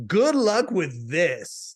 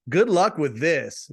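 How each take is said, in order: First: Very slow, with 'this' stretched out; underlined THIS. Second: Quoting her slowly, 'this' lightly weighted; a slowed 'Good luck with this'; measured good wishes. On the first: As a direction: draw out each word and lean on 'this'. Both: Retold or imitated. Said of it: "I'm gonna underline the this".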